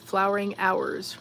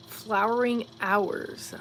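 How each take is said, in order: First: Said in the usual way. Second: Slow, puzzled repeat of the phrase; puzzled slow reread. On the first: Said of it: "reading a chat message". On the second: Real, not acted. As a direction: draw out "Flowering hours" as if tasting the words. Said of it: "I don't know what that means".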